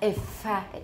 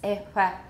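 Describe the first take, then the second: First: The fricative is made with a tight constriction. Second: The fricative is made with a loose constriction. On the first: The speaker calls it wrong. "It's not really tight. It's not ifa" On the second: The speaker calls it right. "It's ifa. 还蛮松的感觉"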